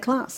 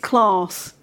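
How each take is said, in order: First: It is said in a Brummie accent. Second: It is said in a standard, non-Brummie accent. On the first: The speaker keeps a native regional pronunciation. "I've got a Brummie accent ... I say class and always will" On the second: Others correct the pronunciation to this form. "People go, oh, it's class, actually"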